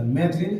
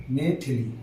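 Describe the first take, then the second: First: मैथिली squeezed to "maith-li"; wrong run-together form. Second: मैथिली with a clear "thi" in the middle; correct middle vowel. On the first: Teacher rejecting the mistake, मैथिली as "maith-li". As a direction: say मैथिली without the middle i. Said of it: "मैथिली ऐसे नहीं". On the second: Teacher sounding out the correct form, मैथिली in three syllables. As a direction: say मैथिली as "mai-thi-lee". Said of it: "ये होता है मैथिली शुद्ध आपका". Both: Shown as a demonstration.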